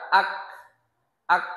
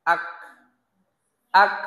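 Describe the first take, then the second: The two takes are said the same way.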